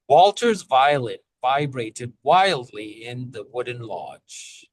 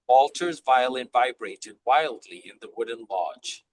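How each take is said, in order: First: It is said at a slower pace. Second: It is said at a faster pace.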